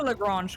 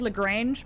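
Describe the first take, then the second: First: The name is said with a French-style pronunciation. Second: The name is said with an English-style pronunciation. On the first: The speaker calls it right. "his name is pronounced in French" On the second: The speaker calls it wrong. "I would have said Lagrange, but I believe like the Z Z Top song"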